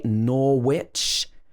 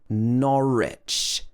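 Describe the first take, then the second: First: The middle W sound is pronounced. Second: The middle W sound is silent. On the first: The speaker calls it wrong. "We don't say Norwich" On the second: The speaker calls it right. "silent W sound. Also in Norwich... It should be Norwich"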